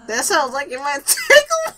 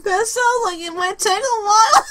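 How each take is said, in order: First: Reading while laughing. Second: Very high, loud mock shout; shouted reread. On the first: Player laughing while reading dialogue, giggling. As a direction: giggle through the line. Reads line, breaks laughing. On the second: Player rereading the dialogue as a loud high shout. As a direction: belt the line out dramatically. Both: Real, not acted.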